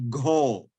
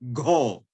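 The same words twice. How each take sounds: First: The syllable starts with a g sound. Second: The syllable starts with a g sound.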